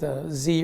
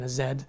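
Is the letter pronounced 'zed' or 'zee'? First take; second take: zee; zed. First: The letter is pronounced 'zee', American style. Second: The letter is pronounced 'zed', Canadian style.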